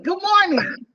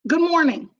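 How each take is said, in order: First: It is said with more energy. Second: It is said with ordinary, lower energy.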